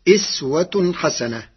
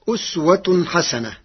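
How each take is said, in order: First: The first word begins with an 'i' vowel. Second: The first word begins with an 'u' vowel.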